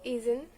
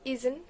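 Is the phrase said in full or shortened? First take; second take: shortened; shortened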